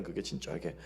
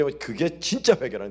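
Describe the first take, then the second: First: 그게 진짜 회개 repeated much softer and lower; a soft, low afterthought of 그게 진짜 회개; quiet echo. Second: Said in the usual way. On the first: Shown as a demonstration. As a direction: let 그게 진짜 회개 fall to a hushed echo.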